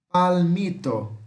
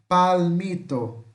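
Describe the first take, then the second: The two takes are said the same way.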